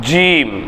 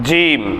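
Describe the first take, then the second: The two takes are said the same way.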